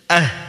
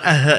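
First: The final consonant flows on without a bounce. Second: The final consonant is released with a bounce. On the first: The speaker calls it right. "dialirkan bunyinya" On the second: The speaker calls it wrong. "bukan ah ya"

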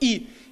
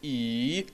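First: The pitch falls sharply from high to low. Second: The pitch dips low and then rises. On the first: "четвертый – «и»" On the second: "третий – «и»"

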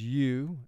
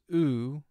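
First: The vowel sounds like the one in mule. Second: The vowel sounds like the one in tube. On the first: "The first long sound for U is U, as in the word mule" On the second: "The second long sound for U is U, as in this word tube"

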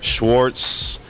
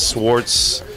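First: The name begins with an SH sound. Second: The name begins with a plain S sound. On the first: The speaker calls it wrong. "Students are always messing up my name by saying Mr" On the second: The speaker calls it right. "adding like Z's to it and CH's"

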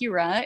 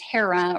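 First: The name is said the Greek way. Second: The name is said the usual English way.

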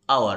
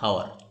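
First: The word begins with a vowel, no h sound. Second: The word begins with an audible h sound. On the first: The speaker calls it right. "We here pronounce hour" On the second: The speaker calls it wrong. "not hour"

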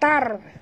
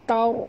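First: The syllable is said thin and light. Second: The syllable is said thick and heavy. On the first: The speaker calls it wrong. "Bukan tar" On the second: The speaker calls it right. "Tapi tar. Naik ke lidah ke atas"

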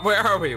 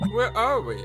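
First: The question is asked in a plain tone. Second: The question is asked in a sassy tone. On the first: The speaker calls it right. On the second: The speaker calls it wrong.

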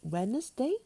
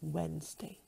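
First: The word is said with three syllables. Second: The word is said with two syllables. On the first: The speaker calls it wrong. "Not Wednesday" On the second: The speaker calls it right. "but Wednesday. There are only two syllables in this word"

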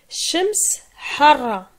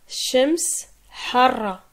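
First: The word for sun ends in an s sound. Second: The word for sun ends in an s sound.

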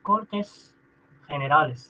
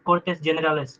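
First: Generales begins with a throaty kh sound. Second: Generales begins with an English-style g sound. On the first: The speaker calls it right. "Generales खे पढ़ देंगे ऐसे. KHAY खे" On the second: The speaker calls it wrong. "not Cortes Generales"

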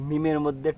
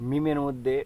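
No difference in how they are said.

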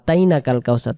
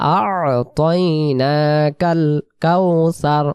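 First: The opening sounds are dropped in a hurried reading. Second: The opening sounds are kept in a careful reading. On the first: The speaker calls it wrong. "এই 2 অক্ষরের উচ্চারণ বাদ চলে যায়" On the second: The speaker calls it right. "তাহলে আমরা কি বলবো?"

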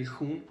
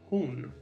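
First: The h at the start is harsh and rough. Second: The h at the start is soft and breathy. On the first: The speaker calls it wrong. "На других языках, где говорили бы, наверное, хун" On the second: The speaker calls it right. "«аш» на шведском – это мягкий «аш»"

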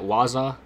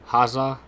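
First: The name starts without an H sound. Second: The name starts with an audible H sound.

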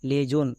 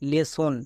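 First: The middle consonant is a z sound. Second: The middle consonant is an s sound. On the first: It is spelled with a single s. The speaker calls it wrong. "বর্গীয় জো হই" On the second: It is spelled with a double s. The speaker calls it right. "বর্গীয় জোটাকে দন্ত সো করতে হবে"

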